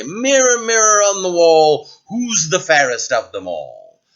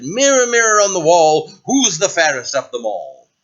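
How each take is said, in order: First: A hint of a grand queen, the opening words higher and louder; queen asking the mirror. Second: Queen asking the mirror again. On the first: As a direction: call grandly on the magic mirror. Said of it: "and say". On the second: Acted. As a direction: summon the mirror with mild pomp.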